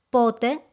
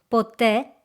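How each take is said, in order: First: The stress is on the first syllable. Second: The stress is on the last syllable. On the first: It asks about time: when. "Πότε means when" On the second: It means never. "Ποτέ means never"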